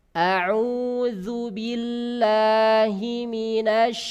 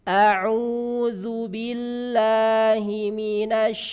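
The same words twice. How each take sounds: No difference in how they are said.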